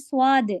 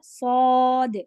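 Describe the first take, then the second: First: The lips round into a w-like glide. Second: The lips stay unrounded with no glide. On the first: The speaker calls it wrong. "हम लोग पढ़ते हैं स्वाद, वा वा होंठ गोल नहीं करना है।" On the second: The speaker calls it right. "वो है सौद।"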